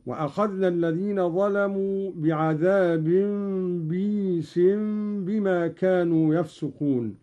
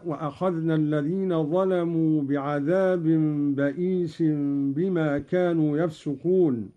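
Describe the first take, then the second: First: "بئيس" said as "بِيس", kasra on the ba then a long ii, no hamza; Qalun reading. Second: Said in the usual way. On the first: Shown as a demonstration. Teacher shows Qalun's "بئيس" as "biis" with a long ii. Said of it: "بكسر الباء بعدها ياء ساكنة". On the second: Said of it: "قوله تعالى".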